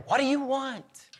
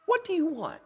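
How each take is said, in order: First: WANT held high in a gentle invitation; "What do you want?" lifted high as an open invitation; inviting question. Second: "What do you want?" pitched high, then falling on WANT; high opening on WHAT, an offer to give; kingly offer. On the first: God offers himself to the listener, inviting question. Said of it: "hear it as an invitation". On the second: King on his throne asks a supplicant, kingly offer. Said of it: "the second inflection". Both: Acted.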